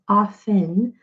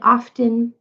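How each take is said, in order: First: The T in the middle is silent. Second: The T in the middle is pronounced. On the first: The speaker calls it right. "it's correctly pronounced as often" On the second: The speaker calls it wrong. "some people say often"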